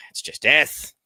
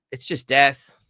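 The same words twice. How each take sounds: First: Breathy whisper on death, said higher. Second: Said in the usual way. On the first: Shown as a demonstration. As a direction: whisper it like a grim aside.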